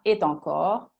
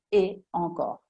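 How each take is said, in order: First: A linking t sound joins the two words. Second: The two words are said separately, unlinked. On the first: The speaker calls it wrong. "non si dirà" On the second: The speaker calls it right. "si dice et encore, staccato"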